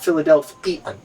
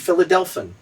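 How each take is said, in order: First: The ending keeps two syllables, 'fee-an'. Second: The ending is squeezed into one short 'fun' syllable. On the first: The name is said the usual way. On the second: The name follows the same pattern as Hawaiian. "if they followed the same rule, it would be"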